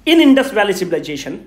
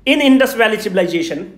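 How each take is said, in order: Both takes have the same delivery.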